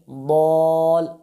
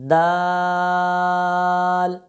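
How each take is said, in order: First: The letter is said with a heavy, full sound. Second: The letter is said with a light, thin sound. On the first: The speaker calls it wrong. "अगर कोई इस हर्फ को पुर पढ़ देता है" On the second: The speaker calls it right. "तो ये इस हर्फ के पढ़ने का दुरुस्त तरीका था।"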